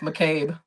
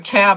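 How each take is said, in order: First: The last syllable has a long 'a' vowel. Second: The last syllable has a short 'a' vowel. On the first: This is the name's proper form. The speaker calls it right. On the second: Someone else kept saying it this way. The speaker calls it wrong.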